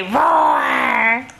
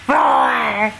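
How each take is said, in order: First: A shouted roar that rises at the end; playful shouted roar; lion roar. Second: Said in the usual way. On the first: Pretend. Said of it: "Does the lion say". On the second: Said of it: "Can you roar like a lion?".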